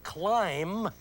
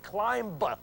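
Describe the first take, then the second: First: It ends with an M sound. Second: It ends with a B sound. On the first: The speaker calls it right. "transposes to seven five three" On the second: The speaker calls it wrong. "you do not say climb"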